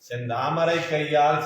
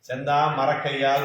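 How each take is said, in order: First: The break comes after 'sentamarai', before 'kaiyaal'. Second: The break comes after 'sentha', joining 'marakkaiyaal'. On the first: The hand is like a red lotus. The speaker calls it right. "செந்தாமரை கையால் சீரார் வளைவழிப்பேன்னு சொல்லணும்" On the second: It sounds like a wooden hand. The speaker calls it wrong. "நம்ம என்ன சொல்லிடுறோம் அவசரத்துல"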